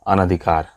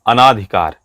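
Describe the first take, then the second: First: No long vowel follows the 'n'. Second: A long 'aa' vowel follows the 'n'. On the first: The speaker calls it right. "जबकि शुद्ध है अनधिकार" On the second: The speaker calls it wrong. "लोग इसमें गलती क्या क्या करते हैं"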